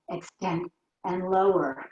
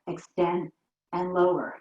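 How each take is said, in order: First: Slow, drawn-out count. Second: Said in the usual way. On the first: Shown as a demonstration. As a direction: stretch each word out slowly. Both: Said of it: "Two more slow".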